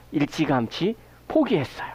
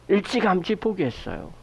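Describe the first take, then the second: First: 포기했어요 falling, leaned on at the end; stress on 포기했어요. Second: 일찌감치 pressed first, then falling away; stress on 일찌감치. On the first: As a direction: let 포기했어요 carry the weight and drop low. (포기했어요에 강세) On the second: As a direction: lean on 일찌감치 to say how early. (일찌감치에 강세) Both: Shown as a demonstration.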